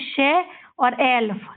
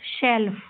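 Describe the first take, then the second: First: शेल्फ split slowly into शे and एल्फ; sounded out. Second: Said in the usual way. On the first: Shown as a demonstration. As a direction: say शे, then एल्फ, as separate parts. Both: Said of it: "इसको ऐसे ही पढ़ते हैं".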